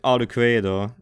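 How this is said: The name is said with a Japanese pronunciation. "in Japanese it's like Arcuedo"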